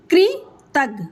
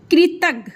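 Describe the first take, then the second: First: कृतज्ञ slowly, split as कृ, तज्ञ; slow syllable demo. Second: Said in the usual way. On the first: Shown as a demonstration. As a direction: hold the कृ of कृतज्ञ, then say तज्ञ apart. (कृतज्ञ धीरे-धीरे, कृ को अलग करके) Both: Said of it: "उसको स्लो से बोलेंगे आप".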